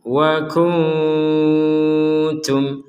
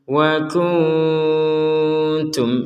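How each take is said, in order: No difference in how they are said.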